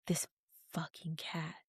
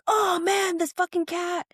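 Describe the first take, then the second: First: Whispered, annoyed curse at the cat; quoting the man cursing the cat in a whisper; muttered curse. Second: Much higher, exasperated mock cry; hammed-up fed-up groan at the cat; exasperated curse. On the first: Retold or imitated. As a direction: hiss it under the breath. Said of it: "And now he's like". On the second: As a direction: throw up your hands, high and fed up. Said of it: "every single time he's like".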